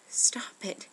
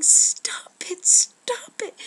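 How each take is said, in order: First: Louder, brief cry of protest; restrained scream. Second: Very high, very loud repeated scream; desperate scream. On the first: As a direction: call out sharply without fully screaming. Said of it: "I started screaming". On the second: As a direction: scream it twice, climbing higher to stop them. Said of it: "kept screaming". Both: Acted.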